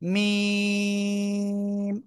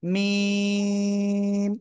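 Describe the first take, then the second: No difference in how they are said.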